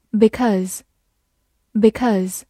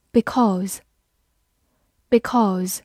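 First: "because" with a shortened, reduced second vowel; weak form. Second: "Because" with a full "aw" vowel in the second syllable; strong form. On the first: Teacher shows learners the alternative "because", weak vowel. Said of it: "也可以弱读成". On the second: Teacher reviews "Because" for learners, full strong vowel. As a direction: say "Because" in full form, twice with a long gap. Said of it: "或者也可以弱读成". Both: Shown as a demonstration.

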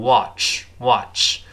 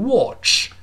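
First: American "watch" with a more open "ah" vowel; American pronunciation. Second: British "watch" with a rounded "o" vowel; British pronunciation. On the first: Teacher contrasts it with British, slow American "watch". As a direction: say "watch" the American way, slowly, mouth wider. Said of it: "美国人口型稍大一点". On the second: Teacher shows how the British say it, British "watch". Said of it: "英国人读成watch". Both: Shown as a demonstration.

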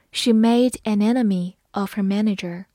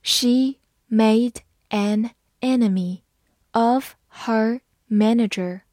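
First: Said in the usual way. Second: Slow, clear word by word reading. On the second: Shown as a demonstration. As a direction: read it slowly for learners. (慢速朗读) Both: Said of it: "好，慢读一遍。".

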